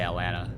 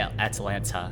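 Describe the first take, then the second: First: The T sounds are dropped for small stops. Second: Both T sounds are pronounced clearly. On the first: The speaker calls it wrong. "pretty much just drop all the T's and just have, add a small stop" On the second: The speaker calls it right. "pronounce both T's"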